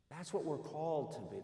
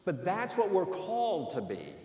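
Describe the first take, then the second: First: Repeated much softer and pulled back; preacher echoing his point softly to the congregation. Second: Said in the usual way. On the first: Real, not acted. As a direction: let the repeat drop to a softer, earnest echo. Preacher repeats line for emphasis.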